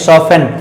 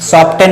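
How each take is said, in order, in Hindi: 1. बीच में कोई t ध्वनि नहीं बोली जाती है। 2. बीच में t ध्वनि बोली जाती है।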